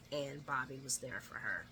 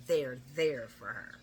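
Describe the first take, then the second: First: Said in the usual way. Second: Slow, low stress on "there, there"; emphatic repetition. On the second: Real, not acted. Recapper underlining Bobby's support for Liz, "there, there" slowly stressed. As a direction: lean hard and slow on each "there".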